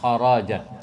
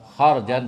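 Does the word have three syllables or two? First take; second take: three; two. First: A short vowel comes between the r and j. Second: No vowel comes between the r and j. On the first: This is the other recorded reading. "tapi kharajan" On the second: This is the usual reading. "Bukan kharjan"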